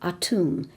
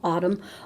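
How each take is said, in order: First: It does not sound like the season word. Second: It sounds like the season word autumn. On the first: "or Atum" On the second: "sounding kind of like fall"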